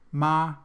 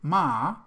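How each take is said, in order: First: The pitch stays high and level. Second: The pitch dips low, then rises. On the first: It means mother. "if we say it in the first tone" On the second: It means horse. "it's horse"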